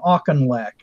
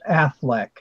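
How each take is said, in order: First: The name is said the way it is spelled. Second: The name is said to sound like 'Affleck'. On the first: The speaker calls it wrong. "you pronounce the name Auchinleck" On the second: The speaker calls it right. "It's actually pronounced Affleck"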